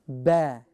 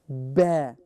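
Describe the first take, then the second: First: It is said light, with the mouth stretched. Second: It is said light, with the mouth stretched.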